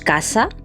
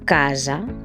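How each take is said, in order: First: The middle s is a voiceless hiss. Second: The middle s is a voiced buzz. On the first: The speaker calls it wrong. "No decimos casa" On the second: The speaker calls it right. "sino casa"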